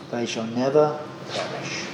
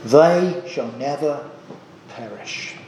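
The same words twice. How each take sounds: First: Said in the usual way. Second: Slow, weighty stress on "never" in "They shall never perish"; slow emphatic quote. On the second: Shown as a demonstration. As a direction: lean slowly on "never", let "perish" drop away.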